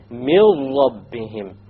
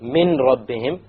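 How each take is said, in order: First: The n sound is dropped and merged into r. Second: The n sound is clearly pronounced before r. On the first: The speaker calls it right. "You drop the noon and you merge the meme with the ra" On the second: The speaker calls it wrong. "you don't say min rabbihim"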